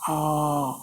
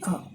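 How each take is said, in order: First: The vowel is drawn out and held longer. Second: The vowel is held only briefly. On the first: "that is the long vowel" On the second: "simply A"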